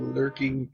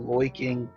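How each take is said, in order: First: The vowel is said like 'ur', a plain voice. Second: The vowel is said like 'oi', a goofy voice. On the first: "as compared to the lurking" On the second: "that's why I said the loiking"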